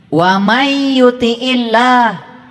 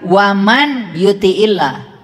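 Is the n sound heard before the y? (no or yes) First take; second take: no; yes. First: The n merges into a doubled y sound. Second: The n is clearly pronounced before the y. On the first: The speaker calls it right. "Karena nun mati ketemu ya. Ada tasdid" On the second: The speaker calls it wrong. "Tidak dibaca waman yuti'illah"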